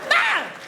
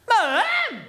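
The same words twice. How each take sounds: First: It is very short and panicked. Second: It is louder and slightly questioning.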